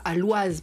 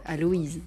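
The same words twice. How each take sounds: First: Aloise with the oi said as one sound, wa; wrong pronunciation. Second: Aloïse with o and i apart, a-lo-ize; right pronunciation. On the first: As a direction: say Aloise like moi. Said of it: "à ce qu'on ne dise pas Aloise". (Aloise prononcé oi comme dans moi) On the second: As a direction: split Aloïse into o then i. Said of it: "on prononce différemment la voyelle". (Aloïse prononcé o-i séparés) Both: Shown as a demonstration.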